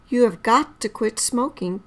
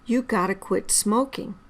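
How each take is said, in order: First: Every word is said in full, including 'have'. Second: 'Have' is dropped and 'got to' becomes 'gotta'.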